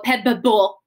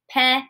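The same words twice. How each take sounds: First: The B sound is pronounced twice. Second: The B sound is pronounced only once. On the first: The speaker calls it wrong. "I'm not going to go pebble" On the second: The speaker calls it right. "only make one B sound"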